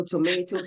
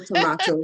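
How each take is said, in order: First: Tomato with "ay" in the middle; American pronunciation. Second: Tomato with "ah" in the middle; British-style pronunciation. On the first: Guest reassuring host about her accent, to-MAY-to. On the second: Guest reassuring host about her accent, to-MAH-to. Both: Shown as a demonstration. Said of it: "same thing".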